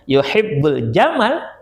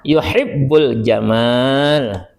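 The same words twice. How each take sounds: First: The vowel in 'ma' is cut short. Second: The vowel in 'ma' is held long. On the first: He loves camels. The speaker calls it wrong. "mencintai onta" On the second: He loves beauty. The speaker calls it right. "mencintai keindahan"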